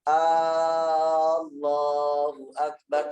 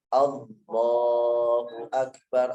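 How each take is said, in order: First: The first vowel is drawn out long. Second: The first vowel is short. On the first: The speaker calls it wrong. "A-nya jangan panjang, jangan Allahu Akbar karena artinya lain" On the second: The speaker calls it right. "harus Allahu Akbar"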